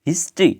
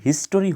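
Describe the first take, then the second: First: The word has only two syllables. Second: The word has three full syllables. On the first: The speaker calls it right. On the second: The speaker calls it wrong.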